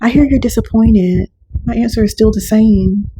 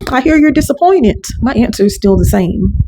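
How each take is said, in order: First: It is said in a calm, warm tone. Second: It is said in a sharp, combative tone.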